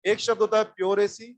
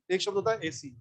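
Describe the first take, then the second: First: pure set apart before AC; stress on pure. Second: Said in the usual way. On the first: Shown as a demonstration.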